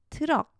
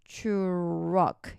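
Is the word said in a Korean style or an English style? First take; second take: Korean style; English style. First: It is said with Korean-style syllables. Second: It is said with English-style syllables. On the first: The speaker calls it wrong. "트럭 이렇게 발음하지 않아요" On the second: The speaker calls it right. "truck 이렇게 발음해요"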